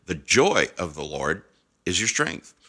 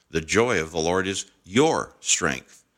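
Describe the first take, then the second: First: "joy" leaned on, rest follows after a pause; stress on JOY. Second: "your" raised and set apart; stress on YOUR. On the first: Preacher contrasting readings of the same phrase, stress on "joy". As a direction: punch "joy", then pause after "Lord". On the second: Preacher contrasting readings of the same phrase, stress on "your". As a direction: hit "your" and let it stand out. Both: Shown as a demonstration. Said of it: "Did you hear the difference?".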